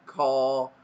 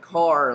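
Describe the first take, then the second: First: It is said in a British accent. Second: It is said in an American accent. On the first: "we might say like car" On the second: "instead of saying car like an American accent"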